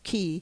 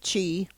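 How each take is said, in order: First: The word starts with a k sound. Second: The word starts with a ch sound.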